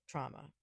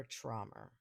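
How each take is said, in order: First: Said in the usual way. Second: "trauma" with a New York accent, dark "traw-muh". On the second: Real, not acted. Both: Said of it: "My New York accent got a little crazy there".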